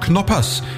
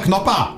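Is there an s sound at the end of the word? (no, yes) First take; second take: yes; no. First: The word ends with an audible s sound. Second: The word ends without any s sound. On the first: This is the name as printed on the package. The speaker calls it right. "Es heißt aber doch Knoppers, steht doch auf der Verpackung" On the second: This is the local Berlin way of saying it. The speaker calls it wrong. "Ich sage Knopper, Schluss"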